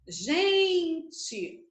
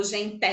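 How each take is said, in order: First: "Gente" with a long drawn-out GEN; stress on first syllable. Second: "gente" wrongly stressed as gen-TÉ; stress on last syllable. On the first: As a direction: stretch the GEN of "Gente", letting TE fall away. Testing which syllable is stressed. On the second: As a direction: drag out an open, stressed TÉ ending on "gente". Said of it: "porque senão seria gente". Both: Shown as a demonstration.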